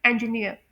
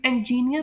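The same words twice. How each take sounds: First: इंजीनियर as en-ji-NEER, ending in an ee-uh glide; right pronunciation. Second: इंजीनियर with a long jee in the middle; common mispronunciation. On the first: Teacher gives students the right pronunciation. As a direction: say इंजीनियर with short ji, gliding ending. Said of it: "इसकी right pronunciation है". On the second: Teacher mimics how students say it, common mispronunciation. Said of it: "आप लोग इसे इंजीनियर pronounce करते होंगे". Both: Shown as a demonstration.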